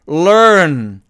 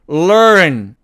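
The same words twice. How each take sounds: No difference in how they are said.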